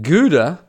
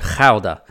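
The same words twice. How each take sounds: First: The name is said with English pronunciation. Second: The name is said with Dutch pronunciation. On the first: "the English language pronunciation of it" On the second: "that's the Dutch pronunciation"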